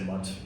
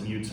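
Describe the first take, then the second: First: It sounds like the word 'mutt'. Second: It sounds like the word 'mute'. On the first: "I've heard some people say mutt" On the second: "I pronounce it mute"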